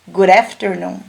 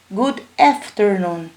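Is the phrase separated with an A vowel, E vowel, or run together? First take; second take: run together; A vowel. First: The two words are run together without a break. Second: The words are separate, with an A-like vowel. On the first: "juntei tudo" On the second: "separado com som de A"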